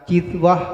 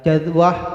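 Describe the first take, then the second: First: The first vowel is a front i sound. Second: The first vowel is an open a sound.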